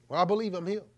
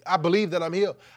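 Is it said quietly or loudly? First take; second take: quietly; loudly. First: It is muttered quietly under the breath. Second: It is said out loud and clearly.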